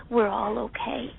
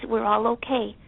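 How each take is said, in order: Both takes have the same delivery.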